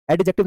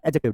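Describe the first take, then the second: First: एडजेक्टिव with a clear d, ed-jective; wrong pronunciation. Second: एडजेक्टिव with the d dropped, ejective; silent d. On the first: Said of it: "एडजेक्टिव नहीं कह रहा". (एडजेक्टिव डी बोलकर, गलत उच्चारण) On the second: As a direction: say एडजेक्टिव without any d sound. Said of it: "डी को silent करके देखो". (एडजेक्टिव डी silent करके, सही उच्चारण) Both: Shown as a demonstration.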